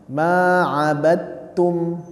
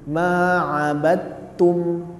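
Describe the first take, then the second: No difference in how they are said.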